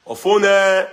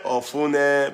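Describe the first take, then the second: First: Loud high call of the name Ofune. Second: Said in the usual way. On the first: Real, not acted. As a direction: call Ofune out across the room. Calling out to a viewer.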